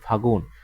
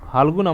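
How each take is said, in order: First: No l sound is heard before the g. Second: An l sound is heard before the g. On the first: This is the shortened everyday form. "এই যে ল বাদ গেছে" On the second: This is the full written form. "আমরা এইভাবে কিন্তু লিখছি"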